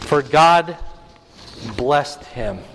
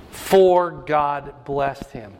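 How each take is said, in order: First: Said in the usual way. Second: "For God blessed him" drawn out very slowly, each word weighed; slow emphatic repeat. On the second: Shown as a demonstration. Preacher repeating the verse to the congregation, very slow and deliberate. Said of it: "He lists all of his sons".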